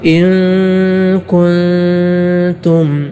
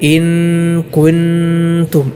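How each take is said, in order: First: The n is a nasal sound without tongue contact. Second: The n is a full n with tongue contact. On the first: The speaker calls it right. "തൊടാതെയാണ്" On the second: The speaker calls it wrong. "നാവിൻ്റെ തല മേലെ മുൻപല്ലിൻ്റെ ഊനിൽ തൊട്ടുകൊണ്ട്"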